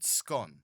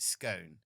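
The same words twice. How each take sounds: First: It is said with a British London pronunciation. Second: It is said with an American pronunciation. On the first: "in London we pronounce the word scone" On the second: "I think Americans pronounce it scone"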